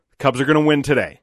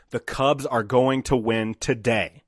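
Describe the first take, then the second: First: Louder, higher, insistent reassurance; emphatic pep talk at normal pace; retold confident assertion. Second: Chanted, slow, deliberate, word-by-word delivery; chanted, space out each word for someone to repeat along; chanted, measured, emphatic retold coaching. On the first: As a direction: declare it firmly, as if correcting a doubter. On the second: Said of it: "Say it with me".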